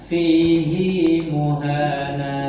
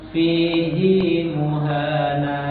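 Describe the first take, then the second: No difference in how they are said.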